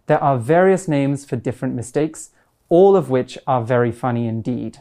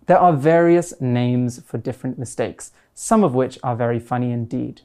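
First: "all" of which stressed as the changed word. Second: Said in the usual way. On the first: Shown as a demonstration. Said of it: "by changing". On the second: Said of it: "That's our original".

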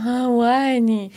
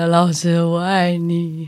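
First: Slow, dazed "我爱你" with eyes shut; dreamy drooling confession. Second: Very slow, dreamy "老师，我爱你"; dazed slow confession. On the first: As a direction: drool it out slowly, half asleep. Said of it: "然后我就这样". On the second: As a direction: drag it out like a dazed patient. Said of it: "那我就再说一次". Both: Retold or imitated.

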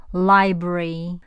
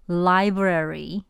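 First: Library said slowly in two syllables, li-bry; clipped two-beat library; 正确的两音节library; right library. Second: Library said slowly in three syllables, li-bra-ry; the wrong three-beat library; 错误的三音节读法. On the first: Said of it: "而是". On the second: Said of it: "不要读". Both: Shown as a demonstration.

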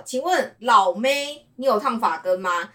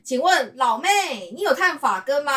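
First: Slow "请问老妹" with a break before "你有烫发根吗", higher pitch; pause after 老妹. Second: "请问老妹" runs straight into "你有烫发根吗" with higher pitch; different phrasing. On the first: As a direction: stretch out "请问老妹" then pause and ask. (在"请问老妹"后停顿，再问) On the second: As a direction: ask it all in one higher breath. (一口气连着问"请问老妹你有烫发根吗") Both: Shown as a demonstration. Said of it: "这两句话都不同的口音".

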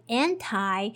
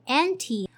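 First: "anti" ending in an eye sound, an-tie. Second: "anti" ending in a short ee sound, an-tee. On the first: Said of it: "some people would say anti". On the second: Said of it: "So A N T I". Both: Shown as a demonstration.

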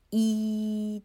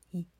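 First: 一 held long, high and steady; long ringing 一, higher than usual; full-length 一. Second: 一 cut to a tiny fraction of its length; a very quick, clipped 一; 一 as a brief glide, not held; shortened 一. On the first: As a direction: sustain 一 as a full vowel. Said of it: "但是你大概把它断成二十分之一". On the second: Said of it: "把它断成二十分之一". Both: Shown as a demonstration.

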